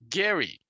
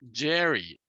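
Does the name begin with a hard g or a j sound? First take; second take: hard g; j sound. First: The name begins with a hard g sound. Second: The name begins with a j sound. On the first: "his name was actually pronounced Gary" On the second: "a politician in Massachusetts named Jerry"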